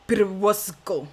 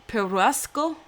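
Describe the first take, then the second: First: Slow, lightly accented try at the name Perusco; character accent. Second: Said in the usual way. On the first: Shown as a demonstration. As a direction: drawl out Perusco in a mild put-on accent. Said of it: "I destroyed this name". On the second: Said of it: "Let me try it with my own voice".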